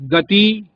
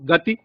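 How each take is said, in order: First: The final vowel is a long ee. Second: The final vowel is a short i. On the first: The speaker calls it wrong. "यहां दीर्घ ई का प्रयोग है" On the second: The speaker calls it right. "मानक रूप में ह्रस्व ई का प्रयोग है"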